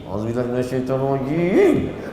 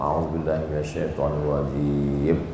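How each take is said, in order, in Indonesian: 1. Frasa ini diucapkan dengan cepat dan tegas. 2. Frasa ini diucapkan dengan lambat dan tenang. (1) "Itu awal-awal lagi" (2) "dia mulai slow"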